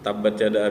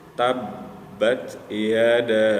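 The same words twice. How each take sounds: First: The doubled consonant is rushed through without holding. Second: The doubled consonant is held briefly before continuing. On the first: The speaker calls it wrong. "langsung aja tuh ditabrak ditabrak diterabas gitu" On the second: The speaker calls it right. "tahan dulu, nggak usah buru-buru, tenang"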